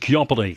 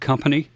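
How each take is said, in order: First: It is said in an exaggerated radio announcer voice. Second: It is said in an ordinary speaking voice. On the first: "You say it as company. That common pronunciation" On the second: "You don't say the word company"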